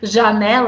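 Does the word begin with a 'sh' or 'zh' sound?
zh. It is said with a soft 'zh' start.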